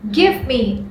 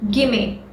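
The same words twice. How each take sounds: First: "give me" said as two full words, not run together; full form give me. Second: "gimme" run together into one quick word; contracted gimme. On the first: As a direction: say "give me" carefully, both words whole. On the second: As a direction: blend it: "gimme", no gap. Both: Shown as a demonstration. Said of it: "is usually contracted".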